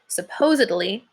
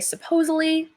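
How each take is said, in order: First: A d sound comes before the ending. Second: No consonant comes before the ending. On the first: The speaker calls it right. "it's supposed to be said supposedly" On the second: The speaker calls it wrong. "take the D out and say supposedly"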